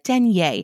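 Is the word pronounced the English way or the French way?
French. The word is pronounced the French way. It sounds refined and French. "If you want to sound French, you can call it denier"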